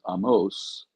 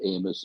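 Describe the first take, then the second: First: The name has its Hebrew pronunciation. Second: The name has its usual English pronunciation.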